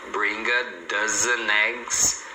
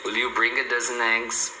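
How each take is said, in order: First: DOZEN EGGS joined as "doze-neggs", very slowly; slow-motion "bring a dozen eggs", all linked; linked words. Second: WILL YOU and DOZEN EGGS run together; whole question connected, "dozen eggs" as "dozeneggs"; linked words. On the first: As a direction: stretch it out, gliding "dozen" into "eggs". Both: Shown as a demonstration. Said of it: "você emenda também".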